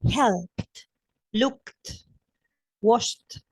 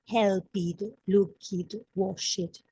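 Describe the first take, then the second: First: The endings have a clear t sound. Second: The endings do not have a t sound. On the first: The speaker calls it right. "a T" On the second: The speaker calls it wrong. "I didn't say"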